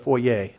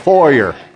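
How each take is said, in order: First: The word ends without an R sound. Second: The word ends with an R sound. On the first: This is how people from another country say it. "Or if you're from Canada, the foyer" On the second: This is how the speaker himself says it. "I ain't from Canada. It's the foyer. If they don't want me to pronounce that R"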